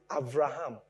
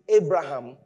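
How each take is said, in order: First: The second consonant is a V sound. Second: The second consonant is a B sound. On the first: The speaker calls it right. "You pronounce it Avraham. So there, it sounds like a V, not a B" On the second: The speaker calls it wrong. "you don't pronounce it Abraham"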